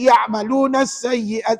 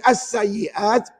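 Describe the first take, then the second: First: The opening hamzah is dropped and linked over. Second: The opening hamzah and vowel are sounded. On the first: "saya tak baca hamzah wasal" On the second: "puan baca hamzah wasal"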